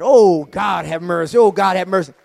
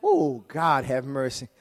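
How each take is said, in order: First: A loud cry of awe; loud fervent exclamation. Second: Said in the usual way. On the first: Real, not acted. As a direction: call it out across the church. Preacher repeats his exclamation.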